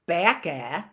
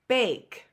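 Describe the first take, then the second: First: The word ends with an added uh sound. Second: The word ends on the k with no vowel. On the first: The speaker calls it wrong. "It's not bakey or or backa" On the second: The speaker calls it right. "No, it's bake"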